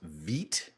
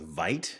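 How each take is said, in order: First: The word is said with a French pronunciation. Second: The word is said with an anglicized pronunciation. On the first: The speaker calls it right. "is actually pronounced Veet" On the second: The speaker calls it wrong. "what I thought was"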